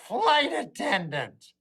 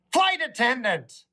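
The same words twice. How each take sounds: First: Overly careful, slow Flight attendant; slow deliberate correction. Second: Careful correction, Flight attendant stressed on flight; self-correcting with a slight pause before Flight attendant; correcting himself. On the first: Comic repeating the correct term slowly to the crowd. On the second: Comic correcting himself mid-story, stressing Flight attendant. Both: Shown as a demonstration. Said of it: "I apologize. Words are different now".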